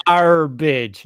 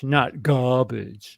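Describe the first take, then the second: First: Garbage said the British way, no r. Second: Garbage with the American r, slow; mock the American garbage slowly. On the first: Friend correcting the American way of saying it, British garbage. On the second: Friend mocking the American way of saying it, slow American garbage. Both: Shown as a demonstration.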